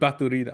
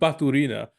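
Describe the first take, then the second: First: The name is said with a Spanish accent. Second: The name is said in a plain accent.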